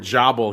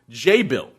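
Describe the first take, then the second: First: The first syllable sounds like 'jaw'. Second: The first syllable sounds like 'jay'. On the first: The speaker calls it wrong. "I said before" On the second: The speaker calls it right. "it's actually pronounced J-Bill"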